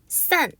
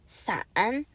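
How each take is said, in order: First: The tone falls sharply. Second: The tone does not fall sharply. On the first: It means to part or separate. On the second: It means umbrella.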